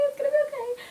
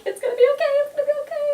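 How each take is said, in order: First: High, teary "okay" with a crying break; a high sobbing plea that trails off; crying reassurance. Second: High, loud pleading reassurance, voice pitched way up; much higher, louder self-comforting plea; reassuring myself. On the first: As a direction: comfort yourself through tears. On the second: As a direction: soothe yourself in a squeaky high panic. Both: Retold or imitated. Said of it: "and I'm like".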